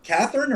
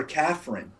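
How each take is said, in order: First: Said in the usual way. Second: "Catherine" squeezed into two syllables, like Caffrin; two-syllable variant. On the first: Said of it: "Is it, is it Catherine or Catherine?". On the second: Shown as a demonstration. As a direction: say "Catherine" without the middle vowel, as CAFF-rin. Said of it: "C A F R Y Y N".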